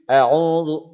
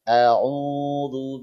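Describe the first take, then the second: First: The long vowel is short and quick. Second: The long vowel is drawn out longer. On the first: "hadr ini yang cepat" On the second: "kalau pada tahqiq"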